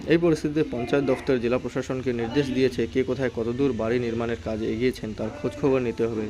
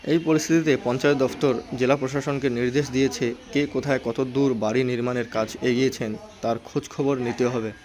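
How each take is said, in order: The two takes are said the same way.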